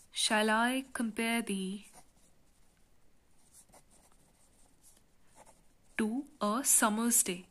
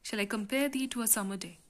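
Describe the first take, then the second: First: Measured, broken-up line of poetry. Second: The verse read briskly in one go; quick reading. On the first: Reads sonnet line for scansion. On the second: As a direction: run the line through without pausing. Repeats the line in one go. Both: Shown as a demonstration.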